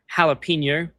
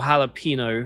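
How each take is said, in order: First: The last syllable is said with a 'nyo' sound. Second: The last syllable is said with a plain 'no'. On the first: The speaker calls it right. "this is a chip that they've called jalapeno" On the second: The speaker calls it wrong. "and not jalapeno or jalapeno, as it keeps being seen online"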